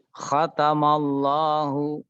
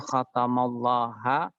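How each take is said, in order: First: The word ends with the vowel u. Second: The word ends with the vowel a. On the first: The speaker calls it right. "membacanya tetap khatamallahu" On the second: The speaker calls it wrong. "tidak mungkin"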